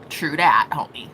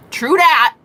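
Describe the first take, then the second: First: Mock bro voice. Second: Higher and louder punchy agreement; loud true that. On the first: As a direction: play a chill bro agreeing. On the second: Pretend. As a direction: bark it like a hype friend. Mock bro agreement.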